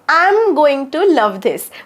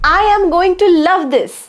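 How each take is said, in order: First: I am is merged into one short word. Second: I am is said as two full words. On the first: "दोन शब्दांचा मी एक शब्द केलाय, contraction म्हणतात त्याला" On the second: "आय एम going to love this पण म्हणू शकता"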